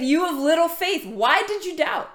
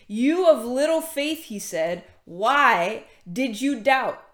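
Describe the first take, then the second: First: Mild mock scolding, pitched up; acted rebuke. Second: Slow, drawn-out reading of a reproach; measured scripture reading. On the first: Preacher voicing Jesus rebuking Peter for doubting, reproachful. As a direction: imitate a reproachful teacher, higher and insistent. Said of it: "he rebuked him". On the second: A narrator's reading. Preacher reading Jesus' words to the congregation, measured. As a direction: read it out slowly, lingering on the question.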